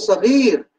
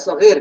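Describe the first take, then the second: First: The vowel is held long. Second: The vowel is held short. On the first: It means very small. "menunjukkan makna kecil sekali" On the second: It means small. "menunjukkan makna kecil"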